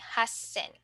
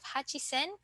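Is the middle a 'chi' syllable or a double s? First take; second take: double s; chi syllable. First: A long double s replaces the chi. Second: A full chi syllable comes before sen. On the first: The speaker calls it right. "we will say Hassen" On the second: The speaker calls it wrong. "instead of Hachisen"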